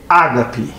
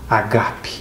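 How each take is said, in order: First: The stress is on the first syllable. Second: The stress is not on the first syllable. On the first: The speaker calls it wrong. "porque é uma palavra proparoxítona e tem que ser acentuada" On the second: The speaker calls it right. "É uma palavra grega. É agape"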